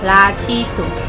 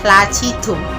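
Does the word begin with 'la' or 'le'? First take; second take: la; la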